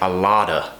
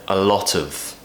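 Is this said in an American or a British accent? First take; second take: American; British. First: It is said in an American accent. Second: It is said in a British accent. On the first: "you might hear an American say a lotta" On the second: "This is our version of it"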